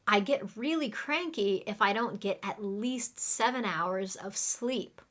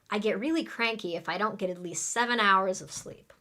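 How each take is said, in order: First: The sentence is spoken at a normal pace. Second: The sentence is spoken very quickly.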